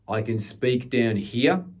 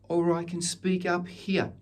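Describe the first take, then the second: First: It is spoken in a low register. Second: It is spoken in a high register.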